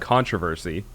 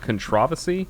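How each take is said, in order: First: The word is said the American way. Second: The word is said the British way. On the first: "In the U S, it's controversy. we put the emphasis on a different syllable" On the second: "is the enunciation in British English controversy?"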